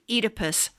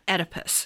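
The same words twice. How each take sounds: First: The first vowel is a long 'ee' sound. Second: The first vowel is not an 'ee' sound. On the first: The speaker calls it right. "O-E is pronounced E" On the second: The speaker calls it wrong. "not Oedipus"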